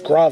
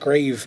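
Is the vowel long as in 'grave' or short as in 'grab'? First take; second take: short; long. First: The vowel is short, as in 'grab'. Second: The vowel is long, as in 'grave'. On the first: The speaker calls it right. "I'm remembering that it's Grav" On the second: The speaker calls it wrong. "not Grave"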